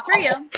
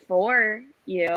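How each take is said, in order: First: "For you" said flat and even, no weight on "For"; even stress. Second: "For" leaned on, pointed; cutting emphasis on "For"; stress on for. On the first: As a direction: keep "For you" level so they wonder. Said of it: "don't change the emphasis in the sentence". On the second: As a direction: hit "For" to show you don't like them. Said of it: "play with your emphasis on the word "for". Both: Shown as a demonstration.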